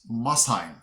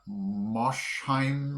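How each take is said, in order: First: The s and h fall in separate syllables. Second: The sh sound ends the first syllable. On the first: The speaker calls it right. "but it's Mosheim" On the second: The speaker calls it wrong. "I would have put the S H in the beginning syllable"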